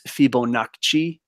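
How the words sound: It is said with an exaggerated Italian pronunciation.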